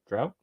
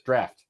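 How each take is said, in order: First: The vowel sounds like the one in 'cow'. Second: The vowel sounds like the one in 'cat'. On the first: The speaker calls it wrong. "Is that how you pronounce it?" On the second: The speaker calls it right. "That's what I meant to say"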